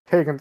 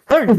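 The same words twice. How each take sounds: First: The word is said at a calm, normal volume. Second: The word is yelled loudly like an announcement. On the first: A simple, polite way to get someone's attention. The speaker calls it right. "can you just said" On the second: A startling announcement that embarrasses the listener. The speaker calls it wrong. "Why did you have to yell it?"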